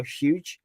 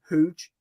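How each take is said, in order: First: "huge" with a y-glide after the h, hyooj; pronounced U. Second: "Huge" as hooj, with no y-glide; two-O vowel. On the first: Shown as a demonstration. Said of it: "I kind of pronounce the U". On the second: Retold or imitated. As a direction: imitate her saying "Huge" like it has two O's. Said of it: "She pronounces it like it's got two O's".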